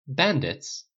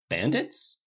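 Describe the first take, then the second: First: Baffled, falling repeat; thrown. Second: Bewildered, rising question; puzzled. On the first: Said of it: "Dale said aloud, completely thrown now". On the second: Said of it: "Dale said aloud". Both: A narrator's reading.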